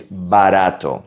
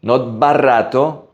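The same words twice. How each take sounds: First: Barato with a soft tapped R. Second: Barato with a hard trilled R; wrong hard R. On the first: Teacher modelling the right soft R in barato. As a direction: say barato with a light single tap on the R. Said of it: "it's a soft R". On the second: Teacher showing the wrong R in barato. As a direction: say barato with a strong rolled R, the wrong way. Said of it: "Again, it's a soft R". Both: Shown as a demonstration.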